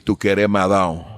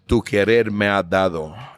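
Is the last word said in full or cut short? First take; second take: cut short; full. First: The last word is cut short, southern style. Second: The last word is said in full.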